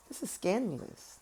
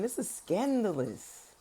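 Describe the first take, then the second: First: Said in the usual way. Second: Slow, savoring scandalous gasp; drawn-out scandalized. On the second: Shown as a demonstration. Reacting to the tower and moon cards, slow scandalized drawl. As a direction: stretch it out like juicy gossip.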